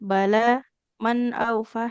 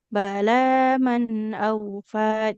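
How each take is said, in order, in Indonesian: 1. Suaranya berhenti jelas setelah kata pertama. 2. Kata-katanya berlanjut tanpa berhenti. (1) "Jadi wakof antara wakof dengan mau dilanjutnya harus jelas" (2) "Atau kalau mau dilanjut"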